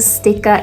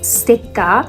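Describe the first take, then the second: First: It is said with English pronunciation. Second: It is said with Japanese pronunciation. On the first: "in English, we call it stickers" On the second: "in katakana, you can say stickers. It's called sticker"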